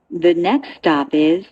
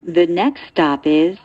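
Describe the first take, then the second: No difference in how they are said.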